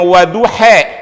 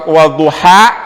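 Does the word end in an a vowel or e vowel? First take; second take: e vowel; a vowel. First: The word ends with an e vowel. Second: The word ends with an a vowel. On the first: "ada yang waduhe" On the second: "baca surat wadduha"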